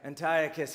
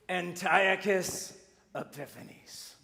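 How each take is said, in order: First: It is said in his normal voice. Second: It is said in a put-on evil voice.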